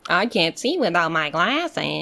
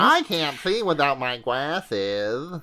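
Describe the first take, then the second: First: Slow, lightly whiny himbo; dopey sweet himbo. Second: Very slow, soft himbo whine; dopey sweet himbo. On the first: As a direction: mourn the glasses slowly. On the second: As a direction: drag it out helplessly. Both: Retold or imitated.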